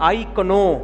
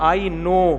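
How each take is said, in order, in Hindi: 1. 'k' उच्चारित होता है, जिससे 'kuh-no' बनता है। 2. 'k' साइलेंट है, जिससे 'no' बनता है।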